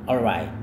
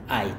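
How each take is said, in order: First: The word is said fully with an L sound. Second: The word is cut to one short syllable. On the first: "Cara sebutnya adalah alright" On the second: "secara informal banget dia hanya bilang ait"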